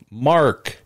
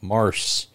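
First: The name ends with a K sound. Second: The name ends with an S sound. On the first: The speaker calls it right. "The C is pronounced like a K" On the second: The speaker calls it wrong. "I was just wanting to say Mars"

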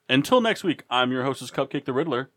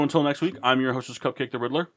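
First: It is said with more energy and flair. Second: It is said with plain, lower energy.

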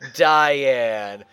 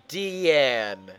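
First: The name begins with a 'die' sound. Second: The name begins with a 'dee' sound. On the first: The speaker calls it wrong. "not Diane" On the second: The speaker calls it right. "It's Deanne"

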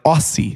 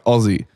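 First: The middle consonant is a hissing s sound. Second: The middle consonant is a buzzing z sound. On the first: "Because it's S's, they're like" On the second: "if we put two Zs in there, they'd be like"

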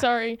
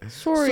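First: It is said with an American accent. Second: It is said with a Canadian accent.

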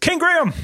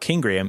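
First: The name is said loudly, like shouting. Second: The name is said at normal volume. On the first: The name is written in capital letters. The speaker calls it right. "It's caps lock, you see" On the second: The name is written in ordinary letters. The speaker calls it wrong. "It's not King Graham"

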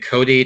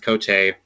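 First: The surname is said with an American pronunciation. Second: The surname is said with a French pronunciation. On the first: This is the form adapted for English speakers. "made it Cody to Americanize it" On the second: This is the family's original pronunciation. "Initially, it was pronounced Cote"

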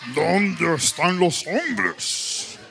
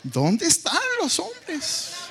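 First: It is said in a put-on deeper, manly voice. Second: It is said with a sassy, attitude-filled tone.

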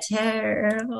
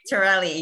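First: It is said with two syllables, ending in 'rell'. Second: It is said with three syllables, ending in 'lee'. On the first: This is how other people say the name. The speaker calls it wrong. "when they pronounce it, they're just like" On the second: This is how the name is really said. The speaker calls it right. "it looks like Terrell, but it's Torelli"

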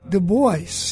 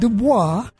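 First: The name is said the American way. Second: The name is said the French way.

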